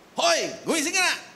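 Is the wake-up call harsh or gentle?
harsh. It is shouted in a harsh, rousing tone.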